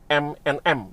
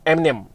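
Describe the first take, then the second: First: Each part is said separately and slowly. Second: The parts are run together quickly.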